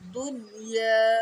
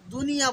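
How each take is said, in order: First: The syllables are said separately. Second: The syllables are run together. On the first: The speaker calls it right. "আলাদা আলাদা" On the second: The speaker calls it wrong. "দুনিয়া বলে অনেকে"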